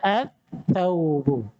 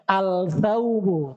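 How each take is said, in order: First: The l merges into a doubled th sound. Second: The l sound is pronounced before the th. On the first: The speaker calls it right. "tapi harus dibaca at-thawbu" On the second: The speaker calls it wrong. "nggak boleh membaca al-thawbu"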